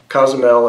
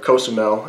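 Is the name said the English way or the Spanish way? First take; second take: English; Spanish. First: The name is said with English sounds. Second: The name is said with Spanish sounds.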